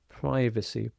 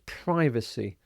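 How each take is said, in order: First: It is said with an American pronunciation. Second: The same.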